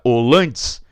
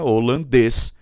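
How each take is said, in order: First: The stress is on the middle syllable. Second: The stress is on the last syllable. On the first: The speaker calls it wrong. "Terminou em es, regra base, vai para dois" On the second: The speaker calls it right. "Desloquei aqui da dois para um"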